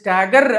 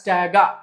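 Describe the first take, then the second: First: The final r sound is pronounced. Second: The final r sound is dropped. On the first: The speaker calls it wrong. "ఆర్ని silent చేసి స్టాగర్ అనకుండా" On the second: The speaker calls it right. "ఆర్ని silent చేసి"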